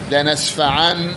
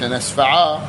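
First: The word ends with an n sound. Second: The word ends with a long a. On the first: This is the form used in continuous speech. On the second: This is the form used when pausing on the word.

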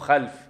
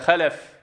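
First: The l is unvowelled, closing the first syllable. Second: The l is followed by a short vowel. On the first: It refers to bad descendants who strayed. "مو خلف" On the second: It refers to good, righteous descendants. "أما إذا كان محركة خلف"

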